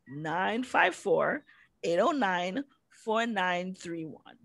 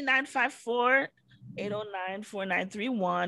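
First: The number is said slowly. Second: The number is said fast.

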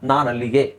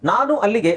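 First: The two words are merged into one. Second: The two words are said separately. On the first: "ಅದು ಮೂರನ್ನು ಕೂಡಿಸ್ತೀವಿ ನಾವು" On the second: "ನಾನು ಅಲ್ಲಿಗೆ ಅನ್ನೋದನ್ನ"

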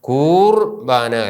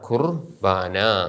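First: The first vowel is held long. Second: The first vowel is kept short. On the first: The speaker calls it wrong. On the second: The speaker calls it right.

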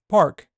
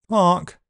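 First: An 'r' sound is heard after the vowel. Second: No 'r' sound is heard after the vowel. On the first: This is the American pronunciation. "In American it's pronounced park. The r is pronounced" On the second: This is the British pronunciation. "in British English there are three sounds, p, r and k"

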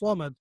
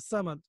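First: The first consonant is a heavy, emphatic s. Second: The first consonant is a plain, light s. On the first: The speaker calls it right. "it's a Swad, so it's not a Seen and it's a full mouth" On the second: The speaker calls it wrong. "it's not Samad"

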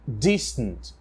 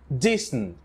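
Both takes have the same delivery.

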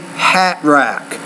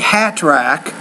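First: The T in hat is a glottal stop. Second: The T in hat is released as a full T. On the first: "I say hat rack" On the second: "You say hat rack"

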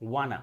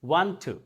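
First: Want to is merged into wanna. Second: Want to is pronounced as two words.

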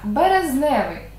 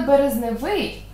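First: The stress falls before the final syllable. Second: The stress falls on the final syllable. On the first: The speaker calls it right. "А так наголос падає на основу" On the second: The speaker calls it wrong. "наголос падав би на закінчення"

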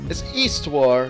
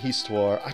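First: The silent letter is left silent. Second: The silent letter is pronounced. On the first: The speaker calls it right. "It's Histoire, not Histoire" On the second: The speaker calls it wrong. "but I like saying Histoire"

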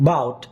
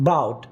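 No difference in how they are said.

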